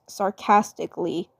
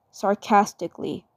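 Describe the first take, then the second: No difference in how they are said.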